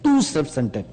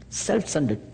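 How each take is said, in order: First: Too self-centered with weight on "too"; stress on too. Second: Said in the usual way. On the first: Shown as a demonstration. Preacher contrasting "too self-centered" with plain. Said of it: "than to say too self-centered". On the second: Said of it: "just to say self-centered is okay".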